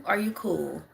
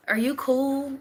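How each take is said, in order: First: Said in the usual way. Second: Higher, playful teasing question; mock concerned check-in. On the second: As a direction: tease the robot like you're checking on it. Teasing a robot in chat.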